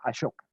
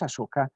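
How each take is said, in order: First: The middle consonant is a 'sh' sound. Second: The middle consonant is a plain 's' sound. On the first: "normalmente se pronuncia Ashoka" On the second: "como suena, digamos Asoka"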